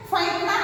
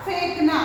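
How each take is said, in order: First: फेंकना said with ai, 'phaink-na'; ai vowel mistake. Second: फेंकना said with e, 'phenk-na'; correct e vowel. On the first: Teacher points out the vowel error, ai-vowel फेंकना. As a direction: put an ai sound in the first syllable of फेंकना. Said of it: "आई की मात्रा आ रही है". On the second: Teacher gives pupils the right word, e-vowel फेंकना. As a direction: give फेंकना a long close e first. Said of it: "यहाँ पर ए की मात्रा". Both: Shown as a demonstration.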